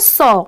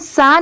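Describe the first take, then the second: First: It is said with a rounded 'aw' vowel. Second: It is said with a plain short 'a' vowel. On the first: The speaker calls it right. "इसे हम simply क्या pronounce करेंगे" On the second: The speaker calls it wrong. "इसे हम सा नहीं पढ़ेंगे"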